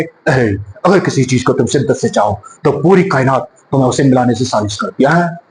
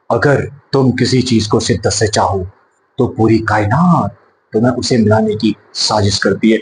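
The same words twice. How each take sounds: First: Deep, heavy baritone dialogue; Amitabh Bachchan impression. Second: Low, soft filmy romantic delivery; Shah Rukh Khan dialogue. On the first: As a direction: boom it out like Big B. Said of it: "अगर बच्चन साहब बोलेंगे तो क्या, कैसे बोलेंगे". (अमिताभ बच्चन की भारी, गहरी आवाज़ में dialogue) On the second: Retold or imitated. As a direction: deliver it like a Bollywood romantic hero. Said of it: "Shahrukh Khan साहब डायलॉग बोलते हैं". (शाहरुख खान के अंदाज़ में धीमा, गहरा डायलॉग)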